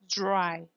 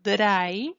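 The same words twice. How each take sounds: First: The R has audible friction noise. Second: The R is smooth, without friction. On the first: The speaker calls it right. "It becomes a fricative" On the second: The speaker calls it wrong. "it's not dry"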